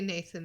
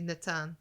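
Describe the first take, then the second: First: The middle consonant is a soft 'th' sound. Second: The middle consonant is a plain 't' sound. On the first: "they don't say Nathan in the in the audiobook" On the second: "They say Natan"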